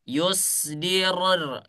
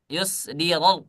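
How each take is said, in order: First: Yusdiror with the final r trilled long. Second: Yusdiror with the final r cut short, no trill; r stopped short. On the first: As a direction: roll the r at the end of Yusdiror. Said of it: "dia harus bergetar". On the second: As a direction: stop the r in Yusdiror dead. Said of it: "Ah, enggak gitu ya". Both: Shown as a demonstration.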